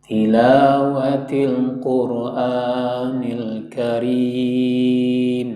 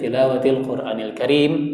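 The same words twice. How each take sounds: First: It is drawn out like Quran recitation. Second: It is read plainly at normal speed.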